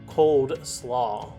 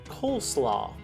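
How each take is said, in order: First: The first part is 'cold' with a d sound. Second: The first part is 'cole' with no d sound. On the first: The speaker calls it wrong. "Many will pronounce this barbecue favorite as cold slaw" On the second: The speaker calls it right. "This southern side dish is pronounced coleslaw"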